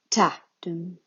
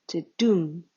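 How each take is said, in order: First: "ta, dum" with a strong first beat and a lighter second; trochaic stress. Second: "the dum" with a light first beat and a strong "dum"; iambic stress. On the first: Explaining the word trochee to listeners, stress on "ta" in "ta, dum". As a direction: hit "ta" hard, pause slightly, let "dum" fall away. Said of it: "the emphasis is on the rhythm". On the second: Showing the traditional iambic foot to listeners, stress on "dum" in "the dum". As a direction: slip quickly over "the", land firmly on "dum". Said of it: "reverse rhythm of the traditional iambic foot".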